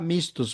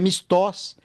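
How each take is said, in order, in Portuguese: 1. A tônica está na primeira sílaba. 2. A tônica está na última sílaba. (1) "em espanhol a gente fala mistos" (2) "tem um acento na O"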